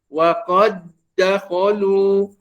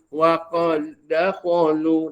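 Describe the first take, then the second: First: The doubled d is held firmly and strongly. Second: The doubled d is touched only lightly. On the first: The speaker calls it right. "jangan diringankan" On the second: The speaker calls it wrong. "Dia tak pegang kuat sangat ya pada dal"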